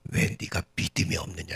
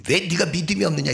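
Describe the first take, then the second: First: Low, understated rebuke; acted reproach. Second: High-pitched, sharp scolding; acted rebuke. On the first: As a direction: reprove without raising the voice. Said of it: "예수님 뭐라고 책망하시냐면". (낮은 목소리로 조용히 책망하듯) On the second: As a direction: fire the reproach at a doubting follower. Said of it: "이 거친 말 속에". (높은 목소리로 꾸짖듯이)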